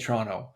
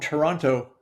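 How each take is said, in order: First: Toronto is pronounced the way locals say it. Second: Toronto is pronounced in a non-local way. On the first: The speaker sounds like a real local. The speaker calls it right. "They say Toronto" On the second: The speaker is probably not really from there. The speaker calls it wrong. "that's not how they say it"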